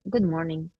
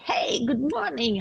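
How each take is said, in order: First: It is said in a cool, formal tone. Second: It is said in a warm, cheerful tone.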